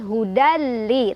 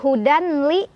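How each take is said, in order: First: The n merges into a short, pressed l. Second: An n sound is heard before the l. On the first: The speaker calls it right. "tapi hudali, tekan" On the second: The speaker calls it wrong. "bukan hudanli"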